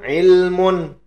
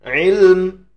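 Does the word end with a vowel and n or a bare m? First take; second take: vowel and n; bare m. First: The word ends with a vowel and n. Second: The word ends on a bare m sound. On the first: The reader continues past the word. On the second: The reader stops on the word.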